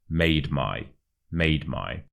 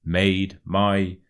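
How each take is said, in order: First: "made my" run together, no gap; "made my" joined, stress on "made"; merged into one word. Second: "Made" and "my" as two separate words; slower demo, "Made my" not yet joined; words kept apart. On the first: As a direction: blend "made" straight into "my". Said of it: "as if they were one word". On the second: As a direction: say "Made", slight gap, then "my". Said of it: "the made and the my". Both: Shown as a demonstration.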